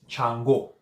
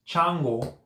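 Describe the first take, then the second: First: The stress is on the last syllable. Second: The stress is on the first syllable. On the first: The speaker calls it right. "the accent mark is on the O. ... Stretch the, the last O" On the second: The speaker calls it wrong. "It's not Chango. ... not the first A"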